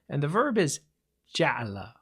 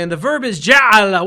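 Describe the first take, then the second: First: It is said quietly, with lowered volume. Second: It is said loudly, with rising volume.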